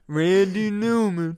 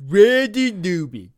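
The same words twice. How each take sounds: First: Slow, loud, higher mock [name] voice; [name] impression. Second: Slow, loud, higher imitation of the singer; [name] impression. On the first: Naming the [name] singer in a slow loud mock Newman voice. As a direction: drawl the name like the singer himself. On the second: Repeating the singer's name back in a slow loud mock Newman voice. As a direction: echo the name in a put-on Newman drawl. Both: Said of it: "the guy that sings that [name] song".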